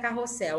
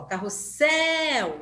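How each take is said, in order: First: Said in the usual way. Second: SSEL in "carrossel" drawn out and raised; "carrossel" with a long, emphatic ending; stress on the last syllable. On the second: Shown as a demonstration. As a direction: slowly call "carrossel", holding the final syllable. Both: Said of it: "o céu também é forte".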